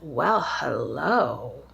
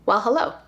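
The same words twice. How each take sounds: First: Said in a teasing, flirtatious greeting tone. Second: Said in a plain, casual greeting tone. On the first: He is romantically interested. "That nuance in his voice, the way that he says it, the speed that he says it" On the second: It is just a friendly greeting. "There's nothing to that"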